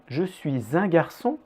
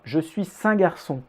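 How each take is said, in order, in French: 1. Le son de liaison avant 'un' est un Z. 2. Le son de liaison avant 'un' est un S. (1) "S devient aussi Z quand il fait partie d'une liaison" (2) "ce n'est pas"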